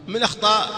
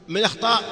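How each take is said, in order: The two takes are said the same way.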